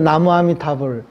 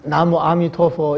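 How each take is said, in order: First: It is said with the Korean reading, ending 'bul'. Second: It is said with the Chinese reading, ending 'tuofo'. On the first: "한국에서 나무아미타불" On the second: "중국에서 나무아미토포 이렇게 부르거든요"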